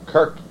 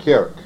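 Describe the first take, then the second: First: "Kirk" tried with an "ur" vowel, like "kurk"; unsure pronunciation. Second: "Kirk" with an open vowel, like "keerk" or "kairk"; corrected pronunciation. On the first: Preacher trying a hard Anglo-Saxon word, "Kirk" said as "kurk". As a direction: say "Kirk" as "kurk", a tentative attempt. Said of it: "I can't even say it". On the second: Preacher repeating a listener's correction, "Kirk" said as "kairk". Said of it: "how do you say it?". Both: Shown as a demonstration.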